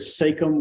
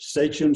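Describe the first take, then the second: First: The ch is said as a hard sound. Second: The ch is said as a soft sound. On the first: This is how some people say it. "with a hard C H" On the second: This is how most people say it. "I think most people pronounce it with a soft C H"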